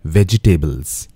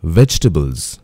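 First: "vegetables" said VEJ-i-TAY-bulz in four syllables; mispronounced "vegetables", vej-i-tay-bulz; wrong pronunciation. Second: "Vegetables" said VEJ-tuh-bulz in three syllables; "Vegetables" with the middle e dropped; careful "Vegetables", vej-tuh-bulz; correct pronunciation. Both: Shown as a demonstration.

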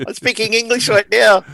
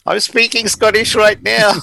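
First: Hammed-up posh English accent, high and loud; mock English accent. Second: Hammed-up Scottish accent, high and loud; mock Scottish accent. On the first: Mimicking David Tennant's forced English accent for a podcast co-host, mock English accent. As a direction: switch to an over-the-top English accent for the joke. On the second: Jokingly imitating David Tennant to a podcast co-host, mock Scottish accent. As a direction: ham up a thick Scottish accent to make your mate laugh. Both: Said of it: "David Tennant did Doctor Who and had to do a non-Scottish accent".

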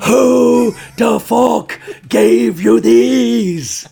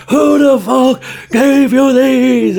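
First: Loud, high, long-drawn mock yell; furious girlfriend. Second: Even higher hammed-up scream, very loud; furious girlfriend. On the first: Girlfriend waking comedian with red underwear, furious mock shout. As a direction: scream it word by word, hammed up. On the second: Girlfriend shaking the bed over underwear, screaming furiously. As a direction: repeat the mock yell at full pitch, stretched. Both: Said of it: "She was really angry".

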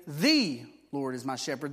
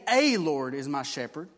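First: "The" stressed with a rise as the right word; "The Lord" emphasized firmly. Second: "A" pushed out and rising as the wrong word; louder, "A Lord" stressed. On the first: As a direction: lean on "The" to correct it. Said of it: "You must say". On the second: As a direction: lean hard on "A" to show the mistake. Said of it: "You can't say". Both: Shown as a demonstration.

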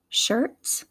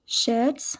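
First: American "shirt" with a strong r; American accent, r-coloured vowel in "shirt". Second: British "shirt" with no r; English accent, r dropped in "shirt". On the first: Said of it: "how I would say it". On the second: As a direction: say "shirt" as in England, "shuht". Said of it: "pronunciation would be in England". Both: Shown as a demonstration.

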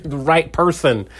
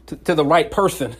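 First: "The right person" said slowly, each word leaned on; slow it down and hit "right" and "person"; stressed right person. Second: Said in the usual way. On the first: Shown as a demonstration. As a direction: drive home "The right person" deliberately. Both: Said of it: "I need you to hear what I'm saying".

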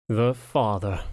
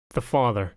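First: Curled-lip echo, weighing each word; "The father" drawn out, coolly distasteful; disdainful echo. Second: Said in the usual way. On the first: A narrator's reading. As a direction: repeat "The father" slowly with understated disdain. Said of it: "Lucius curled his lip". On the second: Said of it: "what I thought was an innocent question".

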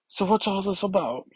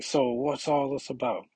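First: High, odd put-on girl voice; a badly done teen voice; horrible voice. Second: Retry of the voice. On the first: X twenty-three asks her question in a bad put-on voice. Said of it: "Oof, that's a horrible voice". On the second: Retold or imitated. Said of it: "that's a horrible voice".

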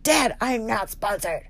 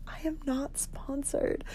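First: Put-on slow, drawn-out teenage protest to dad; mock teenager. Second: Very quiet, higher, slow protest; hiss-free hushed denial, drawn out; embarrassed aside. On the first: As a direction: complain like an embarrassed teen. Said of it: "like, a teenager". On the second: Retold or imitated. Embarrassed aside to her dad.

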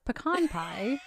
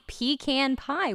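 First: Pecan pie said puh-KAHN pie; correcting pronunciation. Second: Pecan pie said PEE-can pie; own pronunciation. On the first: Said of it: "No, it's". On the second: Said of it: "how do you say it". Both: Shown as a demonstration.

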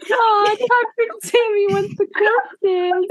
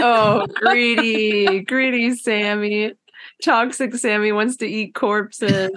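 First: Hammed-up, very high baby talk; mom talking to baby. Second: Lightly voiced cooing mom, drawn-out start; a hint of baby talk, teasing. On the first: Friend playing mommy to toxic Sammy, squeaky mock baby talk. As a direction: coo it like a doting mom, way up high. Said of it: "like a mom talking to her baby". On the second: Friend teasing Sammy about eating corpses, light mommy baby talk. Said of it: "sounded like a mom talking to her baby".

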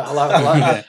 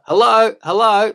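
First: Chuckling through a dopey hello; laughing hello. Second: High, loud dopey hello; dopey country caller. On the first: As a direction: laugh while calling hello. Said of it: "my voice was in his truck". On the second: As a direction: call out like a dopey yokel on radio. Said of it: "dopey people get on the radio". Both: Retold or imitated.

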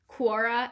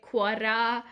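First: Said in the usual way. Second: "Quora" with a trilled r; "Quora" said with a Spanish-style tapped or rolled r. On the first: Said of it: "Is that how you say it?". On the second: Shown as a demonstration. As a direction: roll the R in "Quora". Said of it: "because I roll my R's".

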